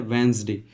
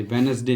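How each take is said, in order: First: वेडनेसडे said in two syllables, "VENS-day"; correct pronunciation. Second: वेडनेसडे said in three syllables, "WEN-us-day"; wrong pronunciation. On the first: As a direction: say वेडनेसडे as "WENZ-day", no middle vowel. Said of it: "इसको हम बोलते हैं". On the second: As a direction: show the mistake, वेडनेसडे as "ve-nes-day". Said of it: "नहीं बोलते हैं". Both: Shown as a demonstration.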